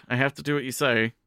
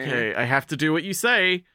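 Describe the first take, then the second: First: Said in the usual way. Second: Meek Hana. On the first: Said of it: "Like, yeah". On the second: Retold or imitated. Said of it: "And Hana's like".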